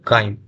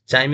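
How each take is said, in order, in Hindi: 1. शब्द 'k' ध्वनि से शुरू होता है। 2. शब्द 'ch' ध्वनि से शुरू होता है। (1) "इसको क्या पढ़िएगा? काइम। तो यहाँ साइलेंट है।" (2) "चाइम इसको नहीं पढ़िएगा"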